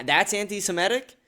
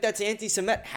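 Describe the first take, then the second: First: Raised-pitch challenging question; incredulous. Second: High mock complaint; mock accuser. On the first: Real, not acted. Answering an accusation with a question, incredulous. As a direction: throw it back in disbelief. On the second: Imitating someone who objects to criticism, mock indignation. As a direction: imitate an offended accuser, pitched up. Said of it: "and you're like".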